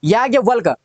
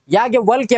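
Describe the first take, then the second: First: याज्ञवल्क ending in bare k; missing final y. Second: याज्ञवल्क्य ending in kya; final y glide. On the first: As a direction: stop याज्ञवल्क on k. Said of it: "याज्ञवल्क्य होता है". (याज्ञवल्क, अंत में सिर्फ क) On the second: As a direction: add y after k in याज्ञवल्क्य. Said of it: "होता है". (याज्ञवल्क्य, अंत में क्य) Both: Shown as a demonstration.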